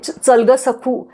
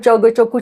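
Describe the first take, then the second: First: The words are said clearly with open lips. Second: The words are mumbled with nearly closed lips. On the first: The speaker calls it right. "हे न करता" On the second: The speaker calls it wrong. "असं ते जे तिचे उच्चार होते"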